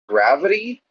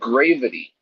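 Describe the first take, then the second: First: The first vowel sounds like the one in 'have'. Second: The first vowel sounds like the one in 'grave'. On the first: The speaker calls it wrong. "stop pronouncing it gravity" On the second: The speaker calls it right. "started calling it gravity"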